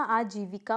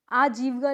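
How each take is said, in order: First: आजीविका as aa-jee-vi-kaa; correct pronunciation. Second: आजीविका squeezed to "aajeevka"; incorrect pronunciation. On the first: Teacher correcting the class, आजीविका with every syllable. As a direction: sound the i after v in आजीविका. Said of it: "होता है". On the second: Teacher showing a mistake, आजीविका without middle i. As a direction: drop the i after v in आजीविका. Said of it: "नहीं होता". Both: Shown as a demonstration.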